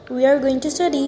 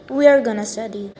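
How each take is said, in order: First: 'Going to' is said fully, both words clear. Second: 'Going to' is reduced to a quick 'gonna'.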